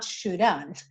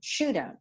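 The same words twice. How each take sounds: First: The stress is on the second syllable. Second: The stress is on the first syllable. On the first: The speaker calls it wrong. "not shouldn't" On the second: The speaker calls it right. "the stressed syllable is should"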